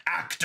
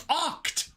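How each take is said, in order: First: Said in the usual way. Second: "oct" with an open ah vowel; mock the slip by saying "oct" with ah; mispronounced act. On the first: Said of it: "I did it". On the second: Shown as a demonstration. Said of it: "I keep saying oct".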